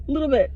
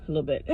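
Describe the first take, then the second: First: Said in the usual way. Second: Much softer and lower, "A little bit." muttered to herself; hushed concession; quiet aside. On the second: Shown as a demonstration. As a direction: take it back under your breath.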